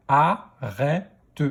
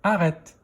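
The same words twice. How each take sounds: First: "Arrête" split into a, rè, te; "Arrête" in three separate beats; syllable by syllable. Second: Said in the usual way. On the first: Shown as a demonstration. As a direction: sound out "Arrête" with a final te. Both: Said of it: "Deuxième syllabe".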